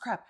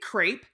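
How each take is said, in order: First: It is said with a French pronunciation. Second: It is said with an American pronunciation. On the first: The speaker calls it right. "it's pronounced crepe" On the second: The speaker calls it wrong. "the way that Americans pronounce crepe"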